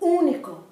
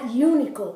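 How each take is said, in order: First: The stress is on the first syllable. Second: The stress is not on the first syllable. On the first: The speaker calls it right. "the emphasis is on the first part of the of the word" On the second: The speaker calls it wrong. "not único"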